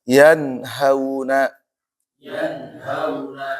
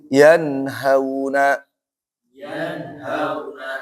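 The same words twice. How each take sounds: Both takes have the same delivery.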